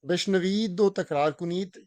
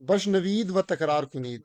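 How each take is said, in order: First: The word for 'and' is a short 'o' sound. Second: The word for 'and' is a full 'va' sound. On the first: "ओ के तौर पे भी पढ़ते हैं" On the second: "वा के आवाज के तौर पे भी पढ़ते हैं"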